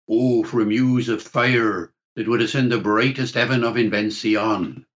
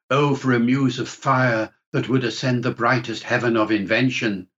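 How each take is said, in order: First: It is said in Shakespearean original pronunciation. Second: It is said in a modern standard accent.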